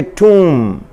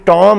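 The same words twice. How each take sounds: First: "टूम" with a long oo and the b silent, said slowly; correct pronunciation. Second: "टॉम" said as Tom with a short o, the wrong way; wrong pronunciation. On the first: Teacher giving students the correct slow toom. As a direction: draw out "टूम" as toom, no b at the end. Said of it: "बल्कि टूम". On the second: Teacher showing students the wrong reading of tomb. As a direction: say "टॉम" like the name Tom to show the mistake. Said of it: "टॉम नहीं है". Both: Shown as a demonstration.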